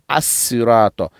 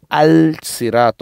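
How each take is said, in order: First: The article blends into a doubled s sound. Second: The article is pronounced with an l sound. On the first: The speaker calls it right. "on dit assurato" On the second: The speaker calls it wrong. "on ne dit pas al sirato"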